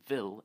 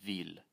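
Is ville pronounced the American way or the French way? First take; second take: American; French. First: It is pronounced with an American pronunciation. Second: It is pronounced with a French pronunciation. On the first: "as you would say Ville" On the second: "instead of Ville"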